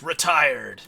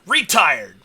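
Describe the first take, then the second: First: The stress falls on the usual syllable. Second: The stress falls on an unexpected syllable. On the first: "it doesn't say it like that" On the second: "it does the emphasis wrong"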